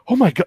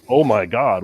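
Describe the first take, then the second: First: It is said in a frightened, shaky way. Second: It is said in a detached, unbothered way. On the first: The character is genuinely afraid. "she sounds like she's scared" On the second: The character is not really worried. "Leon just seems aloof"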